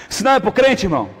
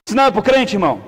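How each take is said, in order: Both takes have the same delivery.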